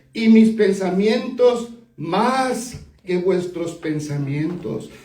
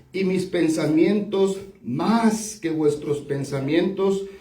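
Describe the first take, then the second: The two takes are said the same way.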